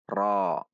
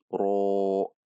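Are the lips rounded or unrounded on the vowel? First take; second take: unrounded; rounded. First: The lips stay unrounded on the vowel. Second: The lips are rounded on the vowel. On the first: The speaker calls it right. "namun dibaca dengan menaikkan pangkal lidah" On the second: The speaker calls it wrong. "Ra tidak membulatkan bibir saat membacakannya, seperti ro"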